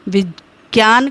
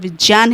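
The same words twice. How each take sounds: First: The middle cluster has a g sound. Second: The middle cluster has a j sound. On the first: This is the popular way of saying it. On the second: This is the correct way of saying it.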